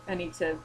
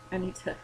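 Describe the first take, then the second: No difference in how they are said.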